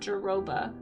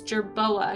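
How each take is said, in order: First: The word is said as ja-ro-ba, ending '-roba'. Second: The word is said as jer-bo-a, ending '-boa'. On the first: The speaker calls it wrong. "not Jaroba" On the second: The speaker calls it right. "it's Jerboa"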